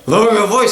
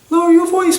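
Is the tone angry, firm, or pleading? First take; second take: angry; pleading. First: It sounds angry, harsh and exasperated. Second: It sounds soft, hesitant and pleading. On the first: The speaker has lost patience. "I've had it with you" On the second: The request is weak and easy to ignore. "We can't say"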